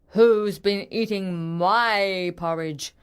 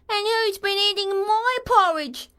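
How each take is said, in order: First: It is said in a deep growling voice. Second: It is said in a high squeaky voice.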